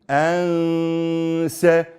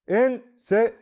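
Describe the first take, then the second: First: The n sound is hidden and held nasally. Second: The n sound is pronounced clearly and fully. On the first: "I'll just hide the nun, ha nun, and hold it nasally" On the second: "We normally recite this as en se before we knew this rule"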